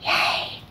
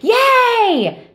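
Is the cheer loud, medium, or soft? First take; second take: soft; loud. First: The cheer is soft. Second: The cheer is loud.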